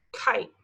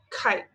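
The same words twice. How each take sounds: First: "Kite" whispered, crisp K at the start. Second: "Kite" said slowly, K clearly aspirated; sounded-out kite. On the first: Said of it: "we're gonna say the first word". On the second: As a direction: stretch "Kite", land on the K. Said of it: "Did you hear the K sound in kite?". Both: Shown as a demonstration.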